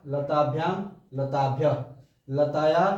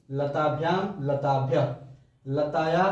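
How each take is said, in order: Both takes have the same delivery.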